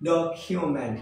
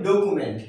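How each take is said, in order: First: "ডকুমেন্ট" said as "dok-kyu-ment"; correct pronunciation. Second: "ডকুমেন্ট" said as "do-ku-ment"; common mispronunciation. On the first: Teacher giving learners the proper form, "ডকুমেন্ট" as dok-kyu-ment. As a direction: say "ডকুমেন্ট" with an aspirated "kyu" in the middle. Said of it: "কি হবে?". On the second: Teacher showing what we usually say, "ডকুমেন্ট" as do-ku-ment. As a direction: say "ডকুমেন্ট" with a plain "ku", no y glide. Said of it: "আমরা এটাকে বলি". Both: Shown as a demonstration.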